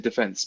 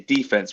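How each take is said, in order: First: It is said the British way. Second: It is said the American way. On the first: "in England we don't say defense, we say defense" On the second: "you say defense"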